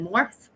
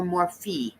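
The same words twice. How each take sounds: First: Morphe as "morf", rising in question; one-syllable pronunciation. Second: Morphe as "MOR-fee", the alternative offered; two-syllable pronunciation. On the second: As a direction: slowly sound out Morphe with final "fee". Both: Shown as a demonstration. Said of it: "Is it Morphe or Morphe?".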